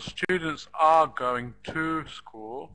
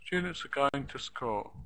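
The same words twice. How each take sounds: First: Full, strong "are" and "to" in students are going to school; every word stressed. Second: Students are going to school, quicker and softer, "are" and "to" as schwas; reduced function words. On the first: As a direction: spell out students, are, going, to, school slowly with equal weight. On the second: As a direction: run it together, stressing STU, GO and school. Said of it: "Everything else is reduced". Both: Shown as a demonstration.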